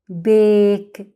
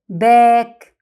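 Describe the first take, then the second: First: The vowel is a long 'ay' sound. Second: The vowel is a short 'a' sound. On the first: The speaker calls it right. "لا بيك" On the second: The speaker calls it wrong. "مش ما قلناش باك"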